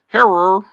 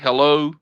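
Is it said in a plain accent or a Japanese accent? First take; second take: Japanese; plain. First: It is said in a stereotypical Japanese accent. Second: It is said in a plain English accent.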